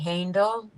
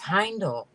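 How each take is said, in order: First: The first syllable does not sound like 'high'. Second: The first syllable sounds like 'high'. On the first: The speaker calls it wrong. "I used to say Heindel" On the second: The speaker calls it right. "but it's Heindel"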